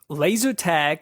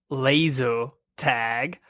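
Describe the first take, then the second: First: It is said in the speaker's ordinary accent. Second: It is said in a British accent.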